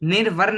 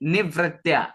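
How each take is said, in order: First: An r sound follows the first syllable ni. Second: No r sound follows the first syllable ni. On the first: The speaker calls it wrong. "ये निर्वर नहीं है" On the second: The speaker calls it right. "र का उच्चारण नहीं लेना, निवृत्त्या simple इतना आपको बोलना"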